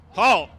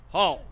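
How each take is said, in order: First: Drill halt with inflection. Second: Sharp, louder drill command halt. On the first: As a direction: Halt called loud and high, falling sharply. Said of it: "the inflection you're supposed to halt". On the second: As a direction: call Halt like a drill sergeant. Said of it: "Wow, the inflection you're supposed to halt". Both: Shown as a demonstration.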